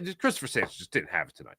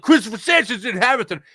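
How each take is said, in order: First: It sounds quiet and disappointed, not mad. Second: It sounds fiery and openly angry.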